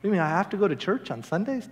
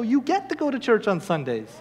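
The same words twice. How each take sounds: First: Softer, rising complaint on "have to go"; mock reluctance, ending on a rise; reluctant question. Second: Higher, falling line with "get" stressed; "get" lifted as a privilege; corrective GET to. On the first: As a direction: question it like a chore. Acted reluctant question, then corrected. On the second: Acted. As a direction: correct them, leaning on "get". Corrects the reluctant question.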